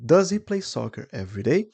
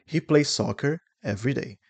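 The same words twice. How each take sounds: First: Higher question, rising on "every day"; lifted question tune with "day" going up; question intonation. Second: Statement tune, no question lift on "every day"; plain statement close on "every day"; affirmative statement tune. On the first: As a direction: ask it, climbing to a high "every day". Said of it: "Now we have the question". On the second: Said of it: "So this is affirmative". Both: Shown as a demonstration.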